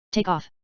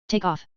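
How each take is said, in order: Both takes have the same delivery.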